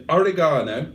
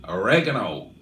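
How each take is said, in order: First: Said in the usual way. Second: Oregano said the American way, lower; American pronunciation. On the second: Retold or imitated. Host shows viewers how American friends say oregano, American accent. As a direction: imitate an American saying oregano, stress on the second syllable. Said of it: "as our American friends would say".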